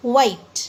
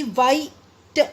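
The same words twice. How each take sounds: First: Said in the usual way. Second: "वाइट" split, a gap before a separate "ट"; broken into pieces. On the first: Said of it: "क्या बोलेंगे?". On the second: Shown as a demonstration. Teacher showing how not to say it, "वाइट" in two pieces. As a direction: say "वाइ", pause, then a detached "ट" for "वाइट". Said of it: "ऐसे नहीं बोलेंगे हम".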